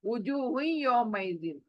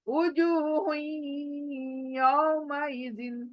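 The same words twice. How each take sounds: First: The words join quickly with no nasal hum. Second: A held nasal hum links the two words. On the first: The speaker calls it wrong. "नाक में आवाज ही नहीं आ रही है।" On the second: The speaker calls it right. "नाक में आवाज लाने के लिए यहां पर बीच में रुकना है"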